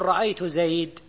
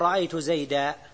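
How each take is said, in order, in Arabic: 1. تنتهي الكلمة الأخيرة على حرف ساكن بلا حركة. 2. تنتهي الكلمة الأخيرة بفتحة طويلة 'a'. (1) "ربيعة يقول" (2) "ربيعة ما يقول"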